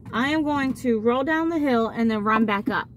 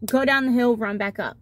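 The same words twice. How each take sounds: First: Said in the usual way. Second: Mock the kid hearing only go down the hill; selective hearing. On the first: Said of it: "Mason goes". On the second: Mother mimics what the daughter heard, go and run punched. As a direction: GO and RUN stressed, the rest dropped. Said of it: "All Aubrey hears is".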